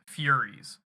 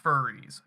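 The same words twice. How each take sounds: First: "Furies" said FYUR-eez; corrected pronunciation. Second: "furries" with a plain fur- start; wrong pronunciation. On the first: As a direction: put a clear y-glide into "Furies". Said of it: "not furries. Furies". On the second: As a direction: say "furries", no y-glide after the f. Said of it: "not furries". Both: Shown as a demonstration.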